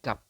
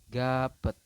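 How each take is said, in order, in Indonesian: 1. Ini satu suku kata yang berakhir dengan p. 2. Ini dua suku kata dengan akhiran tambahan. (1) "Jadi Anda hanya membacanya gap" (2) "kemungkinan besar Anda akan membacanya adalah gapet seperti ini"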